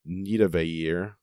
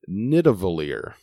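First: The double L is said as a Y sound. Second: The double L is said as an L sound. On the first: "I could perhaps pronounce it a romantic way" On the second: "I'm going to say it is pronounced Nidavellir"

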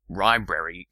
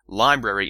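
First: The word begins with an R sound. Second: The word begins with an L sound. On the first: It is not a real English word. The speaker calls it wrong. "library just doesn't make any sense" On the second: It is the real English word. The speaker calls it right. "Library is a sensible word"

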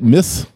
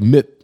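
First: The word ends in an s sound. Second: The word ends in a t sound. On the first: "either say it miss, like you missed something" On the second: "or I stop at the T, like mitt"

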